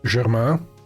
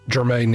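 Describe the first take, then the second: First: The name is pronounced the French way. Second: The name is pronounced the English way. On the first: This is how the name would be said in French. "The French pronunciation oh. would prob- probably be uh" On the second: Someone else said it this way. "is what Alvin said"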